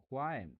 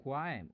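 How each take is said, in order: Both takes have the same delivery.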